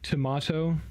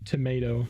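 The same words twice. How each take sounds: First: The word is said the British way. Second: The word is said the non-British way. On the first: "people from Britland, uh, U K say tomato" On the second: "a lot of other English speaking countries say tomato"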